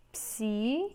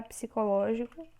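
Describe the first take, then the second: First: "Psicológico" in held pieces: psi, co, ló, gi, co; syllable by syllable. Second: Said in the usual way. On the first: Shown as a demonstration. Teacher showing syllabic separation, syllable by syllable. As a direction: break "Psicológico" apart with long pauses. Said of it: "É assim que a gente faz a separação silábica".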